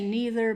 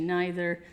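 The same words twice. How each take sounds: First: Pronounced the way the speaker's Southern US region says it. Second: Pronounced the way British people say it.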